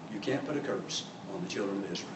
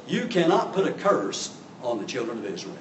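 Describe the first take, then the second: First: Very soft, low repeat of a command; hushed warning. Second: CANNOT stressed in a firm, measured warning; firm command. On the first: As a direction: drop right down to a grave hush. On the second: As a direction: lay down the law on "cannot". Angel's command, first emphatic take. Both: Acted.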